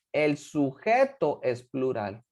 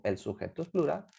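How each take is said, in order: First: Slow, deliberate stress on "sujeto"; key rule emphasized. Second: Said in the usual way. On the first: Shown as a demonstration. Teacher stating the grammar rule to students, slow and emphatic. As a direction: spell out the rule, leaning on "sujeto". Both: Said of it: "Lo repito".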